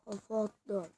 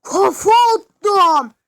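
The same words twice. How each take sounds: First: Low, soft muttered repeat; quiet. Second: Loud, high, slow triumphant shout; drawn-out victory yell; excited yell. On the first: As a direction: say it under your breath. Same line said to himself. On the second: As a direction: crow over the headbutt you just landed. Triumphant cry after a headbutt. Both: Real, not acted.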